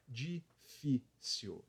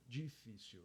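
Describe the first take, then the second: First: Difícil drawn out very slowly, syllable by syllable; slow syllable demo. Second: Difícil said quickly and much softer; quiet normal-speed take. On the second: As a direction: toss off difícil softly at normal pace. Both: Shown as a demonstration. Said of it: "sete letras e três sílabas".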